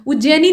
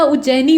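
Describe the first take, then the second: First: उज्जैनी with close e after jj; wrong close e. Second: उज्जैनी with open ai after jj; wide middle vowel in उज्जैनी. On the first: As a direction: say उज्जैनी as ujjay-nee. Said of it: "उज्जैनी नहीं होता". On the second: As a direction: say उज्जैनी as ujjai-nee. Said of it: "उज्जैनी होता है". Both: Shown as a demonstration.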